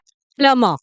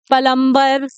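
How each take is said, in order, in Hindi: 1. m के बाद कोई b की आवाज़ नहीं बोली जाती। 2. m के बाद b की आवाज़ बोली जाती है। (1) "जो बी है उसका साउंड तो नहीं आएगा।" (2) "आप सही नहीं बोल रहे हो।"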